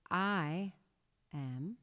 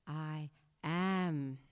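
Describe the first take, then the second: First: "I" pushed louder, "am" falling away; stress on I. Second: "I am" sent out fuller and louder; projected outward. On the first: Teacher demonstrating stress on "I". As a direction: hit the word "I" firmly, let "am" drop. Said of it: "So emphasize I". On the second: Teacher projecting "I am" outward. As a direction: project "I am" out into the aura. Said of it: "project that outward". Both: Shown as a demonstration.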